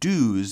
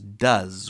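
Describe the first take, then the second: First: The vowel in 'does' matches the vowel of 'do'. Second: The vowel in 'does' is changed to a short vowel. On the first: The speaker calls it wrong. "do doesn't become does" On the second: The speaker calls it right. "it becomes does. We actually change the, the vowel sound here"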